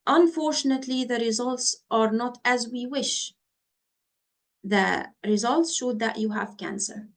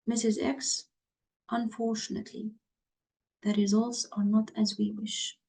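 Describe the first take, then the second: First: Bad news read upbeat and raised; too upbeat delivery. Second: Soft and low, fast on unfortunately; lower tone. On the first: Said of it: "Can you see the tone of the voice? ... I'm speaking up". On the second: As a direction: lower your voice for bad news. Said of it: "Can you see the difference in the tone of voice?". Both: Shown as a demonstration.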